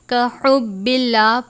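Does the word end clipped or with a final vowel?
clipped. The word stops short without a final vowel. The reader stops at this point. "वक्फ की सूरत में का हुब्बिल्लाह पढ़ेंगे"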